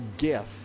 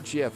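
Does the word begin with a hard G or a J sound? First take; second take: hard G; J sound. First: The word begins with a hard G sound. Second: The word begins with a J sound. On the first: The speaker calls it right. "GIF with a G, not a J" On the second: The speaker calls it wrong. "It's not GIF. It's not like the peanut butter"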